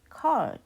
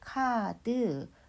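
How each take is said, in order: First: It is said as a single syllable. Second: It is said as two syllables. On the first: "In English, card is one syllable" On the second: "when pronounced in Korean, it becomes 카드, which becomes two syllables"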